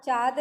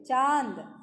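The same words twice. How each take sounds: First: चाँद said as "chaad", no n sound; wrong, without nasalization. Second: चाँद said as "chaand"; nasal आँ in चाँद; nasalized vowel. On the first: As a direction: say चाँद with a purely oral आ. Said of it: "चाँद नहीं बोलते". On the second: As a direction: say चाँद with आ through the nose. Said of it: "चाँद बोलो". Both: Shown as a demonstration.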